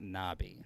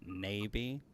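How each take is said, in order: First: The first vowel sounds like 'knob'. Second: The first vowel sounds like 'nay'. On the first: The speaker calls it wrong. "it's not Nabi" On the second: The speaker calls it right. "It's Navy"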